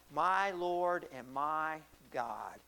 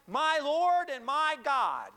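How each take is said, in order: First: Hushed-paced, deliberate acknowledgement of God; reverent confession. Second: Loud, high, drawn-out declaration; slow, ringing preacher's cry; sudden exclaimed confession. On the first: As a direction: let each word stretch out solemnly. Retells Thomas's awed confession. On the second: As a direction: proclaim it as a sudden realization. Retells Thomas's sudden recognition. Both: Retold or imitated.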